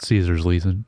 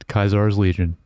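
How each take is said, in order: First: The first word begins with an S sound. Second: The first word begins with a K sound. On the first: This is not how the game pronounces it. "not Caesar's Legion" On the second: This is how the game pronounces it. "which is how they actually pronounce it in the game"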